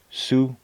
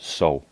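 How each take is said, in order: First: The name is said the Canadian English way. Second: The name is said the local French way. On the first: This is how Canadians say the same spelling. "Here in Canada, we would say Sault" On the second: This is how locals in France say it. "I believe they pronounce it So"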